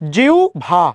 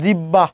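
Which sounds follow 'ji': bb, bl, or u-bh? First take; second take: u-bh; bb. First: The middle is a u glide before bh. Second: The middle is a doubled b sound. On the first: The speaker calls it right. "উচ্চারণ কি? জিউ ভা" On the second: The speaker calls it wrong. "আজীবন বলেছেন জিব্বা"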